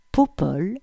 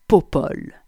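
First: "Popol" said as a question, rising at the end; puzzled echo. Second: Said in the usual way. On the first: A narrator's reading. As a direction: repeat "Popol" questioningly, pitch lifting on the last syllable. Narrator puzzles over the nickname. (« Popol » interrogatif, final montant)

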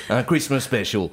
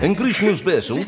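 First: Christmas special said the English way; English accent French. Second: Put-on Christmas special laughed out in English accent; English accent breaking into laughter; laughing English accent. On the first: Pretend. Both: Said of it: "j'ai un accent anglais".

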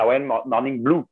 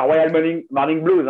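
First: "Blue" with no final s, like the colour; "Royal Mo-, Morning Blue" said without any s sound; correct title. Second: "Blues" with a clear final s, said high as the mistake; mock the wrong "Morning Blues", sounding the s; "Royal Morning, Morning Blues" pronounced with an audible final s; wrong title. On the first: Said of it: "c'est Blue, la couleur". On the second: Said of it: "C'est pas un blues, hein". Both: Shown as a demonstration.

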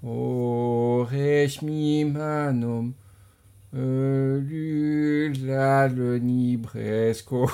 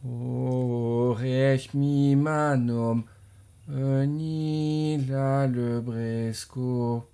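First: "Aurais-je mis ma nom" slowly, from memory, stumbling; slow hesitant reversed line without reading; backwards speech. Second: "Aurais-je mis ma nom" drawn out slowly in reverse; slow careful reversed chant; backwards speech. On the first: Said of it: "je le fais sans lire". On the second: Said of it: "À moi". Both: Shown as a demonstration.

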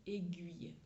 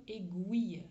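First: "aiguille" with the standard French "ui", é-gɥiy; son ui. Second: "aiguille" said with an "ou" sound, é-gwiy; son ou au milieu. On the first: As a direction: say "aiguille" with a tight "ui" glide, not "ou". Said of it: "c'est le son ui". (« aiguille » prononcé avec le son ui standard) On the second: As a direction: say "aiguille" the Belgian students' way, as é-gouille. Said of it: "avec un son ou au milieu". (« aiguille » prononcé avec le son ou) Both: Shown as a demonstration.

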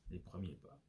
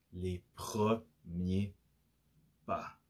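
First: Softly spoken, much quieter; quiet confirmation. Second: "les premiers pas" very slow, syllable by syllable; dramatic slow reveal. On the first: Host confirming the topic to listeners, quietly. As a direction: drop the volume right down, matter-of-fact. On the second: Host revealing today's topic, slow dramatic emphasis. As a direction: draw out each syllable, pausing before "pas". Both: Real, not acted.

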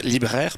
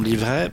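First: Libraires said correctly with an l and a b; libraires, the fixed word; corrected word. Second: Livraires said with a v, a slip; livraires, a tongue slip for libraires. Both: Real, not acted.

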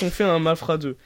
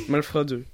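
First: Said in the usual way. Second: Malfra with a clear l before the f; adding the L. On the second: Shown as a demonstration. Correcting the film title for friends, careful Malfra with the l. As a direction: say Malfra, stress the l sound.

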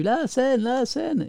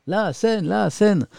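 First: Much higher, chanting like impatient viewers; high-pitched mock chant of complaining viewers; mock viewers yelling. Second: Much higher, teasing chant of the chat; high playful mock chant; mock viewers yelling. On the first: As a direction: imitate the chat nagging him. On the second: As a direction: parrot the viewers' nagging. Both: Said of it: "vous me criez dessus".

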